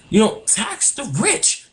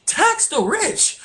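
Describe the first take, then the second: First: Said in the usual way. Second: High, slow insistent plea; emphatic repeat. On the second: Real, not acted. Urging the governor to tax the rich, high slow insistence. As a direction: pitch it way up and draw it out to insist. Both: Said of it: "take my advice".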